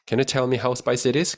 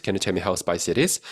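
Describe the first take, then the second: First: Slow, clear question; slow model read. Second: Said in the usual way. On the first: Shown as a demonstration. Teacher reads the question slowly. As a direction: read it for students. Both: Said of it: "확인해 볼 수 있겠죠".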